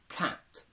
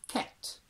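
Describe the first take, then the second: First: Said in a Standard English accent. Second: Said in a heightened RP accent. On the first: "Standard English" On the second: "heightened R P"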